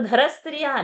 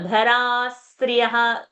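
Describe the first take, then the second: First: The vowel sound is cut short. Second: The vowel sound is held long. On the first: The speaker calls it wrong. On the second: The speaker calls it right. "Maintaining the uh, long sound"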